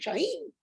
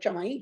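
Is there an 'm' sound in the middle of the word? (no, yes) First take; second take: no; yes. First: The word has no m sound in the middle. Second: The word has an m sound in the middle. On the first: The speaker calls it right. "que se pronuncia Chaín" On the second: The speaker calls it wrong. "no Chamaín"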